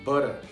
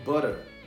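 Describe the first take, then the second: First: The t sounds like a quick r. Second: The same.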